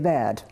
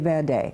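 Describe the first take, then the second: First: The final vowel is weak and barely heard. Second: The final vowel is clearly pronounced as e. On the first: This is the Portuguese way of saying it. "In Portugal we would say verde" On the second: This is the Spanish way of saying it. "We wouldn't say verde"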